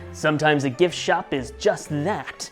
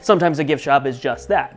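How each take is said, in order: First: It is said slowly and dramatically. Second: It is said quickly in a normal voice. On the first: The speaker is trying to sound suspenseful. "Jason paused dramatically" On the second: The speaker drops the act and states it plainly. "In his normal voice, and quickly he says"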